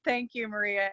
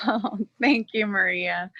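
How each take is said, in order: First: Much softer, tender thanks; softly moved. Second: Thanks with a light laugh. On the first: Thanking her dear friend Maria, quiet and moved. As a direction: say it gently while holding back tears. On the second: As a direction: laugh it off to keep from crying. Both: Real, not acted. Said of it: "you're gonna make me cry".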